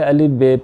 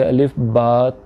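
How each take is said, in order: First: The second letter name ends in an 'e' vowel. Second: The second letter name ends in an 'a' vowel. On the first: This is how the letters are read in Urdu. The speaker calls it wrong. "जैसे हम उर्दू के अगर पट्टी पढ़ते हैं" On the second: This is how the letters are read in Arabic. The speaker calls it right. "बल्कि अलिफ बा ता सा जीम इस तरह से आपने इसको प्रोनाउंस करना है"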